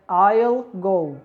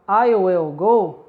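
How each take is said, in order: First: The word will is shortened into I'll. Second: The word will is said in full.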